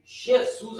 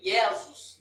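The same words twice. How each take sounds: First: Said in the usual way. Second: JESUS said as YEH-soos, I sound in place of J; Greek-style "Iesous" for JESUS; Greek pronunciation. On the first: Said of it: "Eu não digo Jesus aqui". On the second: Shown as a demonstration. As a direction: begin JESUS on a Y glide, stressing the first syllable. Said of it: "eu digo Jesus".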